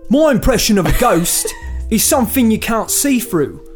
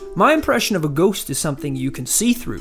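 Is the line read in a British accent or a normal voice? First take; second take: British accent; normal voice. First: It is read in a realistic British accent. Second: It is read in the speaker's ordinary voice.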